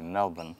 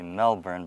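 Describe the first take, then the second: First: It is said the Australian way. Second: It is said the American way.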